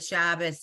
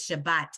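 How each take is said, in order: First: The word ends with an S sound. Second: The word ends with a T sound. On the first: The speaker is older or was trained that way. "it was the S version of this letter" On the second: The speaker is younger. "our age and younger says Shabbat"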